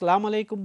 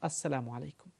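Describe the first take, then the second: First: The greeting starts directly with 'salam', no 'as'. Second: The greeting starts with 'as' before 'salamu'. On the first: The speaker calls it wrong. "এই উচ্চারণটা শুদ্ধ নয়" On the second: The speaker calls it right. "শুদ্ধ উচ্চারণ হলো"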